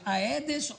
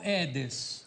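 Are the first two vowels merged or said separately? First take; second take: separate; merged. First: The first two vowels are pronounced separately. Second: The first two vowels merge into one sound. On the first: The speaker calls it right. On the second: The speaker calls it wrong.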